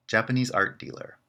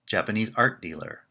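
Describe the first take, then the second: First: Japanese art dealer with the peak on Japanese; stress on Japanese. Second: Art carries the pitch, Japanese art dealer quick; stress on art. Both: Shown as a demonstration. Teacher playing the two alternatives side by side. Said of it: "You can hear the difference in pitch".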